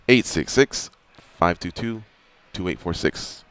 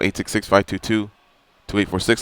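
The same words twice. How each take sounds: First: The number is said at a slower pace. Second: The number is said at a quicker pace.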